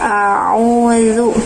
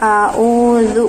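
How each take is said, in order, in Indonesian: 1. Kedua huruf tenggorokan itu dibaca sebagai bunyi ain. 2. Kedua huruf tenggorokan itu dibaca sebagai hamzah. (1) "menjadi ain dua-duanya" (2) "menjadi alif dua-duanya"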